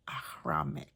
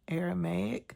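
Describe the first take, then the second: First: It is said the way friends in UAE say it. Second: It is said the usual American way. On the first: "they said it's Ahramic" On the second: "in America, we say Aramaic"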